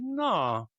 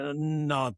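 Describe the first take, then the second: First: It is said brightly, without a sigh. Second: It is said with a resigned sigh. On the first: The speaker is agreeing. "the tone is everything there" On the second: The speaker gives in reluctantly. "when you kind of give in ... you can hear the sigh that goes with that"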